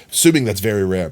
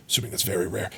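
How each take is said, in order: First: Said in the usual way. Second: Barely voiced, as if to yourself; hushed under breath. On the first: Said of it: "quiet take said first". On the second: Shown as a demonstration. Streamer murmuring about a rare item, very soft. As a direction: say it almost under your breath, much softer. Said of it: "repeats it aloud right after".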